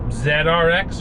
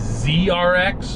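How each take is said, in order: First: The letter Z is said the Canadian way. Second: The letter Z is said the American way.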